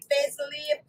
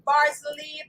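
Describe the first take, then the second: First: "basil" said as BAY-sil in "basil leaf"; the vowel of "bay" in "basil"; long-A pronunciation. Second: "basil" said as BAH-zil in "basil leaf"; broad-A pronunciation. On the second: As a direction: open "ah" in the first syllable of "basil". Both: Shown as a demonstration. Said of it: "depends on what you call it".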